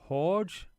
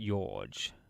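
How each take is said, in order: First: The name begins with an H sound. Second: The name begins with a Y sound. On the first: "It's pronounced like a H" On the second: "in Spanish the J is sometimes pronounced as a Y"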